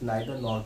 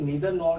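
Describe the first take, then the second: First: The first vowel of neither sounds like eye. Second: The first vowel of neither sounds like ee. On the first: "कुछ नाइदर nor कहते हैं" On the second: "कुछ लोग नीदर nor कहते हैं"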